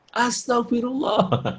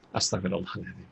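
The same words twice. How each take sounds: First: High, slow, drawn-out mock exclamation; exasperated istighfar. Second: Soft, low murmured prayer; plain istighfar. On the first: Parent fed up with child, mock high exasperated istighfar. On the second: Shown as a demonstration. Parent quietly asking forgiveness, soft low istighfar. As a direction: say it very softly, pitch down.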